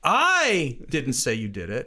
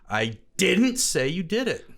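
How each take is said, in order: First: The stress is on the word I. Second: The stress is on the word didn't.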